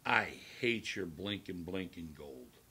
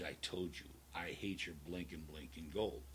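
First: Said in the usual way. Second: Low menacing repeat. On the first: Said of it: "and he says". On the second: Retold or imitated. Stranger repeating his threat to Limo Bob, low and cold. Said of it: "He goes".

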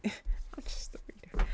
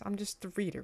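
First: Slow, whispered laugh to self. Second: Said in the usual way. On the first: Real, not acted. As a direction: whisper it slowly through a laugh. Laughing aside, repeats it under breath.

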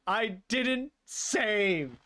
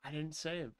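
First: Very slow, higher, drawn-out DIDN'T and SAVE; emphatic dismay. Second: Soft, stunned realization; quiet dismay. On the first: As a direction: drag out each word in disbelief. Dismay peaks over lost progress. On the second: Realizes the game wasn't saved. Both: Real, not acted.

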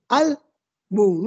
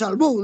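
First: "Álbum" split in two, stressed on AL; stress on first syllable. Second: "álbum" mis-stressed on its last syllable, al-BUM; wrong stress on U. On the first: Teacher correcting a misplaced accent, "Álbum" stressed on AL. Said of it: "tenía que estar en la A". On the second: Teacher showing the wrong reading, "álbum" stressed on BUM. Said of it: "le han puesto la tilde en la U". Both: Shown as a demonstration.

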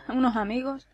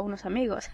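First: "Unos amigos" with a rising, doubtful tune; questioning echo. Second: Said in the usual way. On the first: Real, not acted. Player querying the map's promised surprise, "Unos amigos" as a wary question. Questions what she just read.

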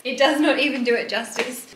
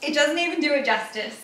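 First: "not" separated out and emphasised; stress on NOT. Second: Said in the usual way. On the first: Real, not acted. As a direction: hit the word "not" for emphasis. Repeats uncontracted for emphasis.

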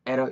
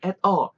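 First: At a run together as 'era'; linked pronunciation. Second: At a as two stressed separate words; overly careful pronunciation. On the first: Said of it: "이렇게 붙어버린 거죠". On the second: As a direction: hit both at and a hard, unlinked. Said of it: "이렇게 너무 정직하게 하지 마시고". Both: Shown as a demonstration.

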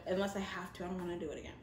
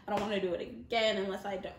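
First: Much softer, trailing repeat; hushed repeat. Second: Said in the usual way. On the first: Acted. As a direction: let it fade to almost nothing.

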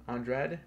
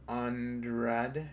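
First: Said in the usual way. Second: ANDRADE drawn out in slow syllables; slow, careful attempt at ANDRADE; sounding out slowly. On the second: Real, not acted. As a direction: feel your way through ANDRADE. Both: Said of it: "I think that's how you pronounce it".

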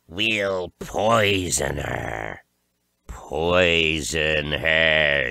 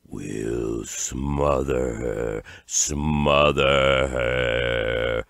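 First: Very slow, drawn-out witch threat; witches' shriek. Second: Low, very slow creeping stage whisper; whispering horrors. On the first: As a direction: stretch each word into a menacing witchy cry. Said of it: "shrieked the witches". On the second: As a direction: draw the threat out like a crawling horror. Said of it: "whispered the crawling horrors". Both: A narrator's reading.

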